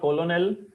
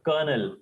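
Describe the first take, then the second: First: It is said as spelled, col-o-nel. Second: It is said like the word kernel. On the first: The speaker calls it wrong. "It is not colonel as we see" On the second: The speaker calls it right. "It is kernel"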